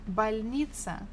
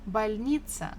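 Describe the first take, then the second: Both takes have the same delivery.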